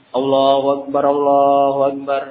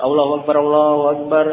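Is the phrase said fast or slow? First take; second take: slow; fast. First: The phrase is said slowly with long drawn vowels. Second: The phrase is said quickly without drawing out. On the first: It calls people who are still far away. "agak pelan-pelan. Dipanjang" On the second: It alerts people already present. "qomat itu pengucapannya agak cepat"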